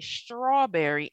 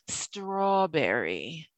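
First: The word begins with an sh sound. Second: The word begins with a plain s sound. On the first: The speaker calls it wrong. "because I say strawberry" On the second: The speaker calls it right. "instead of strawberry"

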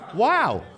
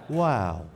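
First: It is said with medium excitement. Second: It is said with mild excitement.

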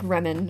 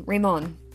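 First: The name is said with a plain English sound. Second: The name is said with a French-like sound. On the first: "It looks like Remon, or that's how my phone pronounces it" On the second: "It's pronounced kind of Frenchy"

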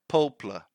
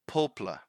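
First: The middle vowel is dropped, like 'poplar'. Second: The same.

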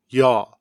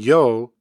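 First: The ending has an open aw vowel. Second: The ending has a close o vowel. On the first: This is a dialect variant of the ending. "is sometimes pronounced as yaw" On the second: This is the standard form of the ending. "final verb ending yo"

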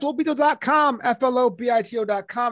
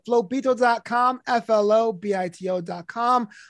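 First: It is said fast. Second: It is said slowly.

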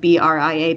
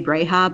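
First: The name is pronounced as Bria. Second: The name is pronounced as Breha. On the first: This is how the audiobook says the name. "in the audiobook they pronounce Leia's mother's name Bria" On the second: This is how the hosts say the name. "Mara and I both say Breha"

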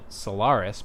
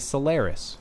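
First: The word is said the British way. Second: The word is said the American way. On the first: "in a lot of English and UK countries, they pronounce it Solaris" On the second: "in America, it's more common to say Solaris"

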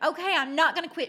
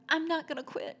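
First: It is said firmly, with conviction. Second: It is said weakly, while crying, without conviction.

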